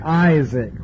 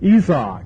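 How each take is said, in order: First: It is said with the English pronunciation. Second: It is said with a continental European pronunciation. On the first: "We say Isaac, which doesn't sound like Hebrew at all" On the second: "they say Isaac"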